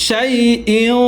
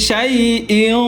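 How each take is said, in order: Both takes have the same delivery.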